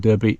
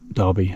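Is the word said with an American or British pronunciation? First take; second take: American; British. First: The word has an American pronunciation. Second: The word has a British pronunciation.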